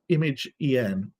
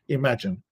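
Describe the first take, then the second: First: It is said as two parts, image and en. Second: It is said as one word, like imagine.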